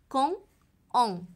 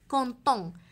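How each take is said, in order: First: The two words are said separately without a t. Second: The words are joined by a t sound. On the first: The speaker calls it wrong. "لن أقول كون اون" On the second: The speaker calls it right. "سنقول كونتون"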